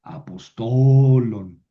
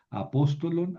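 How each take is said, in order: First: A-pos-TO-lon, TO long and loud; slow, loud demonstration of "apostolon" stressed on TO; stress moved to penultimate. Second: A-POS-to-lon, higher on POS; "apostolon" stressed third syllable from the end; antepenultimate stress. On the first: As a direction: stretch and punch the "to" in "apostolon". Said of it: "pero esta sí". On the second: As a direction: put the accent on "pos" in "apostolon". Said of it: "Esta no la consideramos una vocal larga". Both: Shown as a demonstration.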